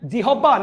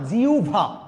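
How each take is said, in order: First: The middle cluster is said as h plus b. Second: The middle cluster is said as u plus bh. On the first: The speaker calls it wrong. "না" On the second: The speaker calls it right. "হয়ের সাথে ব ফলা থাকলে উভ হয়ে যায়"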